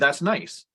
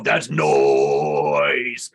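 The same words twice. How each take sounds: First: It is said in a plain, ordinary voice. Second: It is said in a put-on, characterized voice.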